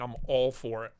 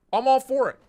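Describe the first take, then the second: First: Said in the usual way. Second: Loud, high, excited endorsement; enthusiastic outburst. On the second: Real, not acted. Streamer thrilled by a butterfly machete, excited. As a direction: burst out with real enthusiasm, much higher and louder.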